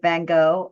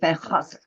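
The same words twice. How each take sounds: First: The name is said with plain English sounds. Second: The name is said with a harsh throat sound. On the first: "Americans can get away with Van Gogh" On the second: "you're kind of hacking"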